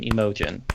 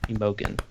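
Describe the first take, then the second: First: "Imogen" with a soft zh-like g. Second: "Imogen" with a hard g as in get. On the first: Unsure of a character's name, "Imogen" with soft g. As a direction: say "Imogen" with the g softened. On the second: Trying the name another way, "Imogen" with hard g. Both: Shown as a demonstration. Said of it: "don't know how to actually pronounce".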